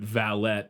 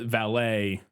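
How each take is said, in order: First: The final T is pronounced. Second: The final T is silent. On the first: It refers to a manservant. "pronounced with the T" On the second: It refers to people who park cars. "as we refer to it"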